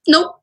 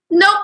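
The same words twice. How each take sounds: First: Emphatic nope. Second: Said in the usual way. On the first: Shown as a demonstration.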